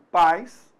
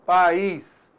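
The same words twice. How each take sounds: First: "pais" in one syllable, a diphthong. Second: "país" split pa-ís, stress on the í; two-syllable país. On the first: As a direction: say "pais" as one beat with a glide. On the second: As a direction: say "país" in two beats, hitting the í. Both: Shown as a demonstration.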